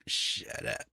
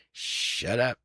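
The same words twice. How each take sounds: First: Low, breathless whisper of shut up. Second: Said in the usual way. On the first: Retold or imitated. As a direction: hiss it under the breath, retold. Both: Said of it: "I'm like".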